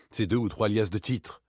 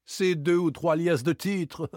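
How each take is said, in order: First: Said in the usual way. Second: High, slow, scornful repetition; indignant echo. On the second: Acted. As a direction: repeat it back in outraged disbelief. Lupin indignantly repeats the words. (indigné, en détachant les mots)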